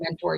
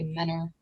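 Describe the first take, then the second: First: The middle t sound is pronounced. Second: The middle t sound is dropped. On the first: The speaker is from out of town. The speaker calls it wrong. "if you say Mentor, you're weird and from out of town" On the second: The speaker is a local. The speaker calls it right. "but we all say Menor"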